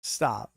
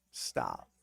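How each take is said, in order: First: Said in the usual way. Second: Deep mock voice on Stop. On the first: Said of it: "saying stop twice". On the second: Shown as a demonstration. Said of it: "second stop much lower".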